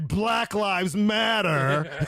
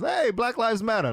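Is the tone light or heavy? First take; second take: heavy; light. First: It is said in a heavy, harsh tone. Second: It is said in a light, friendly tone.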